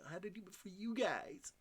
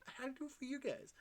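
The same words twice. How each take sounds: First: Mock dramatic voice. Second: Much higher and fast, cartoonish; very high, fast mock devotion; squeaky high rush. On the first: Playful dramatic repeat. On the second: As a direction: squeal it out quickly. Higher faster repeat.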